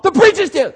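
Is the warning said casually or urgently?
urgently. It is said in an urgent, forceful tone. The listener must act immediately to avoid the danger. The speaker calls it right. "Stop, don't go, stop"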